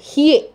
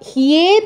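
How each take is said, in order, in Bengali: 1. এটি 'hye', 'y' glide সহ। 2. এটি 'hye', 'y' গ্লাইড সহ।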